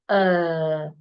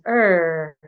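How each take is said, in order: First: The vowel is said in a British way. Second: The vowel is said in an American way. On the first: "the British articulate it as uh" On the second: "The Americans articulate it as er"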